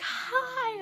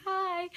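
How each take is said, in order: First: Very high, drawn-out squealed hi; high-pitched mock fangirl-style greeting; retold excited greeting. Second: High little hi back; retelling a giddy high hello; retold starstruck reply. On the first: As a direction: imitate her sing-out hello way up high. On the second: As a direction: echo the greeting, high but less squealed. Her own starstruck reply, retold.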